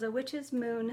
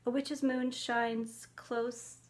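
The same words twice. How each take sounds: First: Said in the usual way. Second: Slow careful reading. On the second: Shown as a demonstration. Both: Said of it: "I can't even read that".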